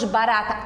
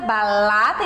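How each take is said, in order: First: The r is said as a tap. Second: The r is replaced by an l sound. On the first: The finished adult form. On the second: A later stage of a child's speech.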